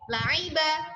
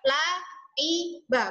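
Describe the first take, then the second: First: The vowel is kept short. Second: The vowel is drawn out long. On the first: The speaker calls it right. "tapi pendek" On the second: The speaker calls it wrong. "Nggak boleh panjang ya, bukan laiba"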